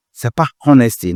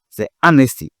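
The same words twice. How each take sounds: First: Honesty with the H sounded; wrong way to say honesty, with H; wrong pronunciation. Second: Honesty said as anesti, silent H; right pronunciation. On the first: (honesty dit à tort avec le o français) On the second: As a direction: correct honesty with no H. (honesty correct, dit anesti sans H) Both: Shown as a demonstration. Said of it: "C'est pas honesty, non".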